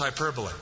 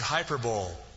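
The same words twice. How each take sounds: First: The word ends with an 'ee' sound. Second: The word ends like the word 'bowl'. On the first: The speaker calls it right. "but it's hyperbole" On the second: The speaker calls it wrong. "It's not like the Super Bowl and the Orange Bowl and the Hyper Bowl"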